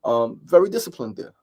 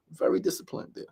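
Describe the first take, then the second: First: Said in the usual way. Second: Whispered echo of the line before; soft unvoiced self-praise. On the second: Shown as a demonstration. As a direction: whisper it back to yourself as a private aside. Repeats praise, then whispers it.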